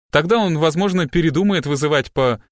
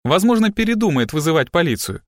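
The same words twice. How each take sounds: First: Raised, urging, broken off mid-word; coax, then stop mid-word; persuasive, cut off. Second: Raised, resolute finish; clear and decisive. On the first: Assistant urges the girl to talk, interrupted. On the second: Assistant finishes her interrupted offer, decisive. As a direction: complete the sentence, articulating firmly. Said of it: "чётко и решительно закончила Робин". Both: A narrator's reading.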